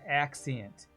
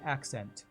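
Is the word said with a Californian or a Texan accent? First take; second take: Texan; Californian. First: The word has a Texan, spread-out A vowel. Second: The word is said in a Californian accent. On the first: "A little more spread in the A, and uh, there's a little bit of Texas poking through" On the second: "If I was in California, I would say accent"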